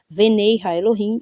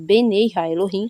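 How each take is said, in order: First: The first word starts with a v sound. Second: The first word starts with a b sound. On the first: "no verso anterior, nós vimos venei ha-Elohim" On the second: "Eu pronunciei benei, não venei, por causa dos sinais ansoréticos"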